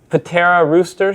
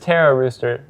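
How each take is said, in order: First: The name starts with a spoken P sound. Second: The name starts with a T sound, no P. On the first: The speaker calls it wrong. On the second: The speaker calls it right.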